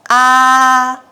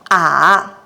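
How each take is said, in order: First: The pitch stays high and level throughout. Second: The pitch dips down then rises again. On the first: "The first tone keeps at the highest light from the start to the end" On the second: "The first pitch begins from the middle and drops down"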